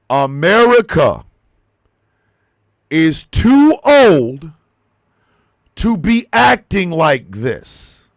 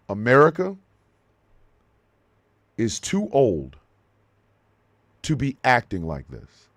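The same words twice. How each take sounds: First: It is said louder, with the voice raised. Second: It is said at normal volume.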